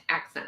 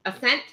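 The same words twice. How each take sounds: First: Accent said as AK-sent, stress on the first syllable with a clear k; flat Accent, AK-sent, falling away softly; misread name. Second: Ascent said as uh-SENT, stress on the second syllable, no k sound; questioning Ascent, uh-SENT with a rising tune; corrected name. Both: Retold or imitated. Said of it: "I'm calling it Accent".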